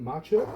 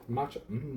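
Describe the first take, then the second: First: Said in the usual way. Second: Voice crack. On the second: Real, not acted. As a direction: voice cracking on the word. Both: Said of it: "little voice crack there".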